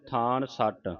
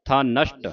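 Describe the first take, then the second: First: ਥਾਨ ਸੱਟ split after the n; wrong word split. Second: ਥਾ ਨਸ਼ਟ with ਥਾ apart; separated syllable. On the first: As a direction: run n onto the first word: ਥਾਨ ਸੱਟ. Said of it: "ਥਾਨ ਸੱਟ ਉਚਾਰ ਨਹੀਂ ਕਰਨਾ". (ਥਾਨ ਸੱਟ, ਨੰਨਾ ਪਹਿਲੇ ਸ਼ਬਦ ਨਾਲ ਜੋੜ ਕੇ) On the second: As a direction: split off ਥਾ, then sh-ṭ cluster in ਨਸ਼ਟ. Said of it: "ਇਹ ਵੱਖਰਾ ਕਰ ਦੇਣਾ ਹੈ". (ਥਾ ਵੱਖਰਾ, ਫਿਰ ਨਸ਼ਟ) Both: Shown as a demonstration.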